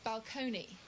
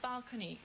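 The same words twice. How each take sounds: First: The stress is moved to a different syllable. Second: The stress falls in the usual, standard place. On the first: This is the affected private-language version. "they used to change the inflections" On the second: This is how most people said it. "instead of saying balcony"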